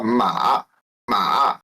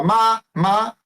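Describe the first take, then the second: First: "ma" dropped low and dipping, then curving up. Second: "ma" held high and level, no glide. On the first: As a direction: drag "ma" down into a low dip. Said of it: "é cavalo". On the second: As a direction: sing out "ma" on one steady upper pitch. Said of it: "é mãe". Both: Shown as a demonstration.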